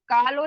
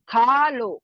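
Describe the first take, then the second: First: The first consonant has no breathy puff. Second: The first consonant has a heavy breathy puff. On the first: The speaker calls it wrong. "का लो नहीं बोल सकते ना" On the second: The speaker calls it right. "सीने की तरफ से भारी आवाज आ रही है ना"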